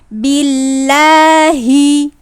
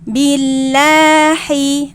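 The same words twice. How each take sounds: First: The h sound is full, from deep throat. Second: The h sound is lightened and weak. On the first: The speaker calls it right. "tetap harus dijaga makhrajnya di pangkal tenggorokan" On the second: The speaker calls it wrong. "kita biasanya suka meringankan menjadi bacaannya seperti ini"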